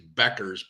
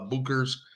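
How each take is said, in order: First: The first syllable sounds like beck. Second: The first syllable sounds like book. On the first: This is believed to be the name's actual pronunciation. The speaker calls it right. "I believe, is the correct pronunciation" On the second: This is how the speaker usually says the name. The speaker calls it wrong. "I call it uh, Bookers. I could be completely wrong"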